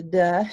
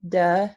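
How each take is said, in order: First: The stop is released with the voice buzzing. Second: The same.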